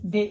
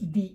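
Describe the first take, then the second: First: The word ends in a short 'uh' vowel. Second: The word ends in an 'ee' vowel. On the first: A consonant sound follows. "மெய்யொலி முன்னாடி இதோட உச்சரிப்பு வந்து தே" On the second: A vowel sound follows. "உயிர் ஒலி முன்னாடி இது வந்து தி"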